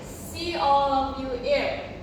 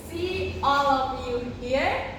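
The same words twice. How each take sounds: First: The H at the start of 'here' is dropped. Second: The H at the start of 'here' is pronounced.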